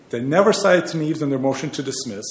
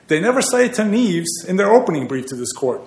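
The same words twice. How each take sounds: First: Said in the usual way. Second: NEVER pushed up higher in a raised, indignant voice; emphatic repeat. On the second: Real, not acted. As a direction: build on the first line, stress never. Repeats the parallel statement with emphasis.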